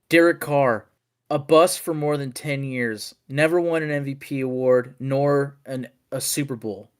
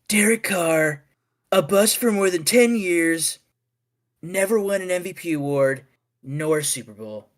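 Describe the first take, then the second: First: It is read in the speaker's natural voice. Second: It is read in an imitated politician's voice.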